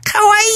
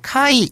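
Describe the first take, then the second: First: The word is drawn out long. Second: The word is said short and clipped. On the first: The speaker calls it right. "이렇게 길게 빼시면 되게 좋아요" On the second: The speaker calls it wrong. "이렇게 짧게 하지 마시고요"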